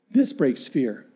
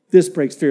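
First: Low, soft first take; hushed before the repeat; quiet statement. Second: Preacher hammering the line; firm repeat. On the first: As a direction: say it softly, almost to yourself. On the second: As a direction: drive the point home. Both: Real, not acted.

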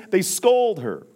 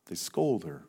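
First: Loud and high, scolding tone; loud indignant declaration; emphatic. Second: Low, soft repeat; hushed, sorrowful echo; quiet. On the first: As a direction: hit it hard like an accusation. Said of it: "repeats line, then drops low". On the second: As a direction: let it fall to a hush. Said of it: "repeat said low and soft". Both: Shown as a demonstration.

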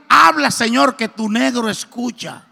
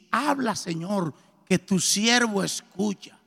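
First: Louder, hasty call then slower end; eager blurted prayer. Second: Slow, soft and reverent; slow prayerful words. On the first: Man kneeling in a hurry calling to God, loud and eager. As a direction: blurt it out in a rush, then settle. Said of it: "total que yo dije". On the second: Pastor teaching him the prayer to say, slow and soft. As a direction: lay each word down gently as a prayer. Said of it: "te arrodillas y dices". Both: Retold or imitated.

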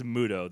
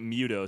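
First: "Muto" said MOO-toh; correct Muto. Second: "Muto" said MYOO-toh; mispronounced Muto. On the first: Host checking the monster's name, "Muto" as MOO-toh. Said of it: "That's how it's pronounced". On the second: Host owning up to a slip, "Muto" as MYOO-toh. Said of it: "I keep pronouncing it". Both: Shown as a demonstration.

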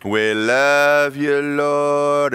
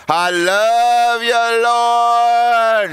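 First: Slow, showy church praise; a slow, drawn-out mock worship line; put-on hallelujah. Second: Higher, louder, slow drawn-out worship; louder put-on praise. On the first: Churchgoer putting on hallelujah for God, slow showy praise. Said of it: "we all put on our hallelujah". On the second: Churchgoer drowning out God's voice, higher, louder drawn-out praise. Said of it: "you get a little louder so you don't have to hear".

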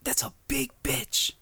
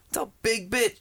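First: Awed whisper. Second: Said in the usual way. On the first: Real, not acted. Awed whisper about the pool.

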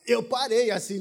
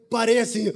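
First: Gasp, then stunned words; awed gasp. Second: Said in the usual way. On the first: Retold or imitated. Retelling the moment he saw her, gasping in awe. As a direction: catch your breath in wonder.

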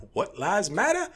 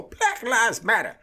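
First: High, slow, exaggerated confusion; parodied baffled question; mock puzzled bystander. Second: Much higher, louder, slow chanted slogan; hammed-up crowd chant; mock protest chant. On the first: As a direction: play the clueless onlooker, drawn out.

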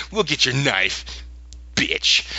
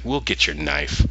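First: Pointed retold agreement with an insult tacked on; mock defiance. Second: Unflinching. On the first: Lyra staring him down over the knife, defiantly. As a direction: imitate a defiant stare put into words. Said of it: "her eye said, "Bitch". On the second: Retold or imitated. Will facing the collector's deal, unflinching. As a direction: agree without flinching, keeping it low and even. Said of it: "he didn't flinch".

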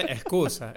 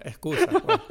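First: Said in the usual way. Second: "excusa, pues" jumped high and loud, rising; a playful, scoffing high-pitched excusa; mocking high excuse. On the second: Real, not acted.

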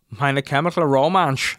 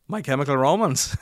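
First: Loud, slow mock German; German accent. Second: Put-on louder German-accented English. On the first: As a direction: draw it out in exaggerated German. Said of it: "he was like". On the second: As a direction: imitate a German repeating it plainly. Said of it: "And he was like".

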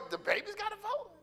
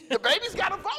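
First: High, softer put-on voice of disbelief; mock indignant question. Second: Laughing, incredulous question; a real laugh at the absurd idea; amused disbelief. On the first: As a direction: play the shocked board member, pitched way up. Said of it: "I wanted to go over to Johnny and go". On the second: Real, not acted. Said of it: "The baby's on the board?".

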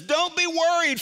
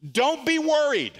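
First: Stressed on be, higher; firm command. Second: Higher, stressed on be; firm command. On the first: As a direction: lean on "be" in "Don't be worried" as an order. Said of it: "He says". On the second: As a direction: hit "be" hard in "Don't be worried", higher and louder. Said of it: "watch this". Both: Acted.

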